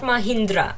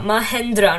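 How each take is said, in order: First: The middle syllable has an 'ih' vowel. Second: The middle syllable has an 'eh' vowel. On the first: The speaker calls it wrong. "not Mahindra" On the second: The speaker calls it right.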